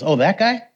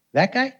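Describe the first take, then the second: First: Raised pitch, rising questioning tune; imitated reaction. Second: Much higher, incredulous rising query; imitated reaction. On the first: Villager asked about the healed man, knowingly questioning. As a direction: echo it as a knowing query. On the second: Villager reacting to the healed man, high and incredulous. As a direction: pitch leaps up on a mock question. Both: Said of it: "This is how he said it".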